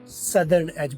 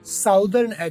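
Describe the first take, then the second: First: The first vowel sounds like uh. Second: The first vowel sounds like ow. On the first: The speaker calls it right. "सदर्न as बोलना है" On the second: The speaker calls it wrong. "साउदर्न as नहीं बोलना"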